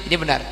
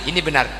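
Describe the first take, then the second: Both takes have the same delivery.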